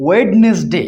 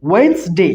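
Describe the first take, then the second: First: ওয়েডনেসডে in three beats, wed-nes-day; wrong pronunciation. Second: ওয়েডনেসডে in two beats, wens-day; correct pronunciation. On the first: Teacher mimics what many people say, ওয়েডনেসডে as wed-nes-day. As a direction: sound the first D fully in ওয়েডনেসডে. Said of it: "অর্থাৎ উচ্চারণ ভুল করে". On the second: Teacher gives the actual pronunciation, ওয়েডনেসডে as wens-day. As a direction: drop the first D of ওয়েডনেসডে, saying wens-day. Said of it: "এর actual উচ্চারণটা কি?". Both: Shown as a demonstration.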